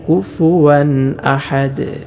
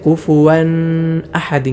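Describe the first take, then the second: First: The middle sound is a clear w. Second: The word is said with a nasal hum. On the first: The speaker calls it right. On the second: The speaker calls it wrong.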